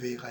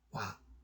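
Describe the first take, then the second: First: The word is pronounced with the vowel 'oe'. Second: The word is pronounced with the vowel 'wa'. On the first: "원래 발음이 외가 아니라" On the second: "원래 발음이 ... 와입니다"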